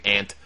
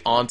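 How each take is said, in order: First: AUNT with the short A of "ant". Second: AUNT with a broad AH vowel; broad pronunciation of aunt. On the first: Host comparing ways people say it, AUNT as "ant". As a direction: say AUNT exactly like the insect "ant". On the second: Host comparing ways people say it, AUNT as "ahnt". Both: Shown as a demonstration. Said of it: "some people say aunt".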